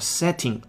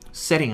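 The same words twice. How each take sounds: First: The middle t is a clear t sound. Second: The middle t is a quick flapped sound. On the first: "正常读是这个样子" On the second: "您可以用到弹舌音"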